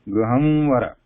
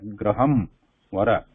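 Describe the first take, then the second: First: The words run together without a pause. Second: There is a short pause between the words. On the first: The final m becomes an anusvara. "pronouncing them together without break" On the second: The final sound stays a full m. "You're stopping and then saying Vara"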